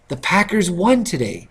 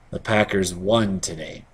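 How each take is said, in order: First: It is said with excitement. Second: It is said without excitement.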